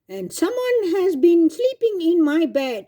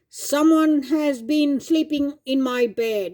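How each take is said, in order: First: A medium-pitched Mama Bear voice. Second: A big, deep, booming Papa Bear voice.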